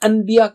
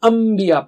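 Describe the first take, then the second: First: An n sound comes right before the b. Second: A nasalized m sound comes before the b.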